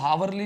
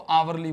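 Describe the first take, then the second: First: The word begins with an h sound. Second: The word begins directly with a vowel. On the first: The speaker calls it wrong. "इसको हावरली नहीं बोलेंगे" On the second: The speaker calls it right. "इसको आवरली बोलेंगे"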